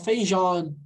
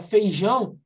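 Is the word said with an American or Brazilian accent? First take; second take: American; Brazilian. First: It is said with an American accent. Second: It is said with a Brazilian accent. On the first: The speaker calls it wrong. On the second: The speaker calls it right.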